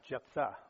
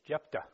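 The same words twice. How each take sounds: First: The name is said with a th sound. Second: The name is said with a plain t sound. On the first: The speaker calls it wrong. "not Jephthah, which I was saying for many, many weeks" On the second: The speaker calls it right.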